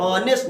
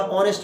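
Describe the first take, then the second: First: "ऑनेस्ट" broken by a brief halt at नेस्ट; syllable demonstration. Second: Said in the usual way. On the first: Shown as a demonstration. Teacher showing students where the tongue pauses, "ऑनेस्ट" said syllable by syllable. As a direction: show the syllable catch in "ऑनेस्ट". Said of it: "नेस्ट पर जाकर रुक रहे". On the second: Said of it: "एक बार ऑनेस्ट पे जा दिए".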